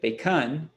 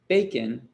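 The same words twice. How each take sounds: First: The stress is on the second syllable. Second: The stress is on the first syllable. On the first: The speaker calls it wrong. "If we reverse this stress" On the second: The speaker calls it right. "the bacon comes down a little bit"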